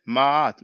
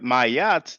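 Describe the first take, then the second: First: One long drawn-out a vowel is heard. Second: A y sound joins the two vowels. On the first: The speaker calls it right. "like a elongated a sound" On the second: The speaker calls it wrong. "there's no y, it doesn't sound good"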